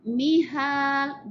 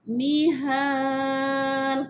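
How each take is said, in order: First: The long vowel is held for two counts. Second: The long vowel is held for four counts. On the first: "dua gerakan jari" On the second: "panjang sikit"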